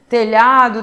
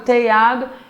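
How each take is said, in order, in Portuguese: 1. O som lh é claramente pronunciado. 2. O som lh vira um i simples.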